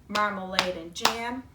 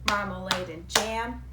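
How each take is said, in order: No difference in how they are said.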